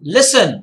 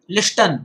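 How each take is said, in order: First: No t sound is heard in the middle. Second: A t sound is pronounced in the middle. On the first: The speaker calls it right. "टी स्पेलिंगच्या मधोमध आहे आणि silent आहे" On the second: The speaker calls it wrong. "आपण लिस्टन नाही म्हणत"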